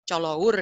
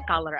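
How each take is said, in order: First: "colour" read as written, "cho-lo-ur"; spelling pronunciation. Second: Said in the usual way. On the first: Shown as a demonstration. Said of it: "kalau British itu kan yang pakai U". ("colour" dibaca sesuai tulisan, co-lo-ur) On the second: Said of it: "kalau yang American kan color aja".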